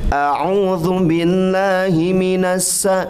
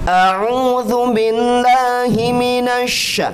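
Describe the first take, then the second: First: The last syllable has a plain thin 's' sound. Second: The last syllable has a spreading, bursting 'sh' sound. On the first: The speaker calls it wrong. "Jadi nggak boleh gini" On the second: The speaker calls it right.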